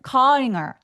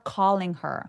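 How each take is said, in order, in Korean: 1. 'calling'에서 L 소리는 거의 안 나요. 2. 'calling'에서 L 소리는 분명하게 나요. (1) "calling her 이렇게 니을 소리 혹은 엘 소리를 또렷하게 내주지 않으면 아예 다른 단어처럼 들릴 수 있거든요" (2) "ling 할 때 혀 끝으로 윗니 뒤쪽을 으 하면서 긁어내시는 거예요"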